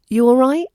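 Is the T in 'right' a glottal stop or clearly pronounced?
glottal stop. The T is a glottal stop, London-style.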